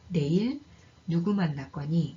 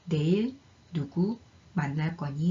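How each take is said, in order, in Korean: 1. 두 개의 음높이 구로 나뉘어요. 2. 세 개의 음높이 구로 나뉘어요. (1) "의문사로 쓰일 때는 ... 이렇게 두 개의 강세구로 이루어지게 됩니다" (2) "부정사로 쓰일 때는 ... 이렇게 세 개의 강세구로 이루어지는데"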